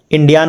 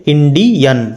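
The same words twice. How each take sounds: First: "इंडियन" ending in a long -yaan; wrong pronunciation. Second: "इंडियन" ending in a short -yən; correct pronunciation. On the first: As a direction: stretch the last vowel of "इंडियन" to आ. ("इंडियन" को गलत ढंग से इंडियान बोलना) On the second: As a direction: keep the last vowel of "इंडियन" a short अ. ("इंडियन" के अंत में छोटा अ) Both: Shown as a demonstration. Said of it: "इंडियन नहीं पढ़ेंगे".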